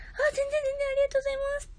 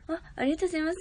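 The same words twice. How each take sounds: First: Much higher, cutesy squeaky thank-you. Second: Said in the usual way. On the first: Shown as a demonstration. Streamer showing off her high voice to chat. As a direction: pitch it way up like a cute idol. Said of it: "高い声も出せるし". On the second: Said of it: "普通の声も出せるし".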